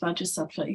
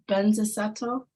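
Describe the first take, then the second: First: The name begins with a 'vajra' sound. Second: The name begins with a 'benza' sound. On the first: This is the form many places use. "a lot of places use Vajrasattva" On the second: This is the form the speaker learned first. "I was taught Banza Sato"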